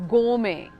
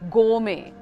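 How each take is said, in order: First: British accent, with the R almost silent. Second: British accent, with the R almost silent.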